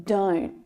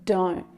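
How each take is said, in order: First: The final T sound is stopped short. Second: The same.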